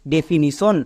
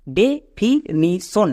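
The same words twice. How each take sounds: First: Said in the usual way. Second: definition very slowly, broken as ডে-ফি-নি-শন; syllable by syllable. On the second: Shown as a demonstration. Teacher showing students how the split word is pronounced, syllable by syllable. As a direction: sound out definition in four separate, drawn-out parts. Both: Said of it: "এবার একসঙ্গে উচ্চারণ করো".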